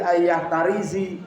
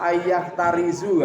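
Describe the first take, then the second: First: The last word ends with an i vowel. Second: The last word ends with a u vowel. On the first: "gak boleh ya" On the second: "gak boleh"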